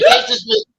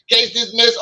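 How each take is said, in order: First: Booming high judge proclamation, much louder; mock judge. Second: High, amused echo through a laugh; laughing repeat. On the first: Judge throwing out the case, booming high mock proclamation. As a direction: bang the gavel on it, high and loud. Judge voiced in retold story. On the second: Retold or imitated. Retelling the judge's ruling to his sister, laughing echo. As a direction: replay the verdict while cracking up.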